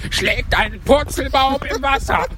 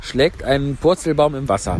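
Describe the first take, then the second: First: High, wild cry while leaping; jumping about wildly. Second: Said in the usual way. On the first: Acted. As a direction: shout it exuberantly, bouncing all over. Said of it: "Ich bin unbändig umhergesprungen". (unbändig hüpfend, hoch gerufen)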